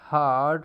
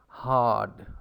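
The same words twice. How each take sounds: First: It is said with an r sound after the vowel. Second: It is said without an r sound after the vowel. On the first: "ra is there" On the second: "In R P, you pronounce it hard, so there is no ra sound"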